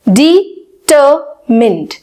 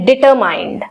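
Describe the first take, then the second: First: The last syllable sounds like short 'mind'. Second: The last syllable rhymes with 'mind'. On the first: The speaker calls it right. "Actually इसकी pronunciation क्या है?" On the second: The speaker calls it wrong. "हम भी इसको बोलते हैं डिटरमाइंड"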